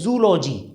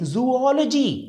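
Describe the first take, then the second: First: The first two vowels merge into three syllables. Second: The word has four syllables with two separate vowels. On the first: The speaker calls it wrong. "जैसे आप बोलेंगे शायद जूलॉजी" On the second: The speaker calls it right. "इसको हम बोलेंगे जूओलॉजी"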